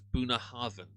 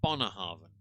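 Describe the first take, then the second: First: The first syllable is said like 'boo'. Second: The first syllable is said like 'bon'. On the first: This is the pronunciation printed on the bottle. "they even put the pronunciation there as" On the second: This is how the Scottish say it.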